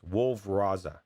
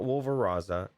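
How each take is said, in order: First: The name is said as two separate words. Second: The name runs together as one word. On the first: The speaker calls it right. "it's Wolf Raza. Two words" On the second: The speaker calls it wrong. "It's not Wolveraza"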